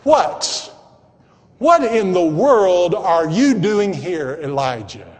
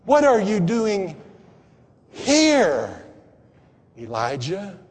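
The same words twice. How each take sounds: First: Emphatic, slow question led by "What"; stress on What. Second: "here" set off by a pause and drawn out; pause, land on "here", then soften the name; questioning emphasis on an isolated "here"; stress on here. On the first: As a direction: hit "What" hard as God demanding an answer. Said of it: "put the emphasis on that first word". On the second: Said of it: "emphasis was on the next to the last word". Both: Acted.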